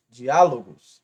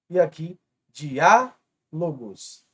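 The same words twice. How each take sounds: First: Diálogos mais forte, dià enfatizado em volume; stressed syllable shown. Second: Diálogos devagar com dià forte; stressed syllable shown. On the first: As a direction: repita diálogos batendo o diá. (diálogos repetido com ênfase no diá) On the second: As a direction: puxe o acento em diá de diálogos. (diálogos lento, antepenúltima marcada) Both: Shown as a demonstration. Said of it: "a antepenúltima como a mais forte".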